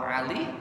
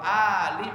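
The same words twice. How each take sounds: First: It begins with a pharyngeal consonant. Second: It begins with a glottal stop. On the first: It is the personal name Ali. "jangan pakai ain. Kalau Ali, Sayyidina Ali namanya" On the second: It means family. "Ali pakai hamzah"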